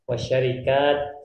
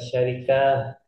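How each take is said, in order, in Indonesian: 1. Kata ini berakhir dengan bunyi t yang jelas. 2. Kata ini berakhir dengan bunyi h yang lembut. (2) "bukan syarikah"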